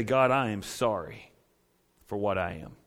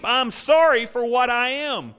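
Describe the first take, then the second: First: Whisper-close plea of a broken sinner; humble prayer. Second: Higher, louder, slow declaration of sorrow; loud confession. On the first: Sinner lifting hands to God, soft and humble. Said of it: "and say". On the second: Preacher voicing the sinner's confession, loud and slow. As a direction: proclaim the confession like a sermon climax. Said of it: "mourn, and weep". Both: Shown as a demonstration.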